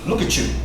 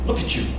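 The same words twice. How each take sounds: First: The T and Y blend into one sound. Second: The T and Y blend into one sound.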